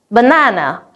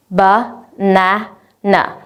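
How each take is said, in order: First: Said in the usual way. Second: "ba-na-na" split into three slow, separate syllables. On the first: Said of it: "For example". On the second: Shown as a demonstration. Teacher showing students the syllables to clap: slow, split ba-na-na. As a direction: say "ba-na-na" very slowly, one beat per syllable so each can be clapped. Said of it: "three syllables".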